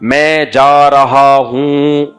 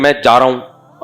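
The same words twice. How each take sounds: First: It is said slowly with careful, drawn-out sounds. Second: It is said quickly in a casual way. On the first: It shows proper, refined manners. The speaker calls it right. "तजवीद के कायदों का लिहाज किया करो" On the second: It is ordinary careless speech. The speaker calls it wrong. "ऐसा नहीं कि"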